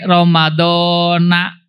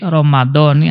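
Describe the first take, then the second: First: The word ends with an 'a' vowel. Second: The word ends with an 'i' vowel. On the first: The speaker calls it wrong. "Nah itu kurang tepat" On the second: The speaker calls it right. "kembali ditanda jernya dengan apa? Dengan kasroh"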